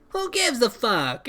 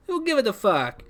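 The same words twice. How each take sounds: First: Character catchphrase. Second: Put-on high-pitched, clumsy Italian accent; badly faked Italian accent. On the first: Acted. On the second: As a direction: attempt an Italian accent in a character voice. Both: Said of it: "I can't do an Italian accent".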